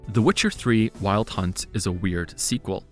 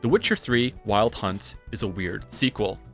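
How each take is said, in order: First: The voice sounds dampened with little room echo. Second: The voice carries noticeable room reflection. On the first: "Now we're gonna get the blanket" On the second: "this is normal"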